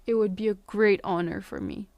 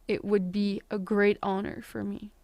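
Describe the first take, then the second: Both takes have the same delivery.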